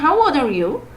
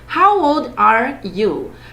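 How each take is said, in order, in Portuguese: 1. É dita muito rápido, com sons ligados. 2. É dita muito devagar e com cuidado. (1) "Mas se for bem rapidinho" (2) "se eu falar bem devagarzinho"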